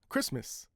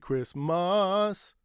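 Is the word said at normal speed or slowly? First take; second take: normal speed; slowly. First: The word is said quickly at normal speed. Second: The word is said slowly with an uh vowel. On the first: "at a normal speed, a quick normal speed" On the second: "when they say it slowly"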